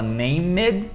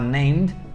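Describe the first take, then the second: First: The -ed ending is an extra syllable. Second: It is short, with one syllable. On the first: The speaker calls it wrong. "ele fala named" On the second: The speaker calls it right. "que é uma, mais curtinho"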